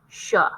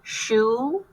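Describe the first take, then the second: First: The vowel is a short uh sound. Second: The vowel is a long oo sound. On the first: The speaker calls it wrong. "Try it with the uh sound" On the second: The speaker calls it right. "Try it with the oo sound"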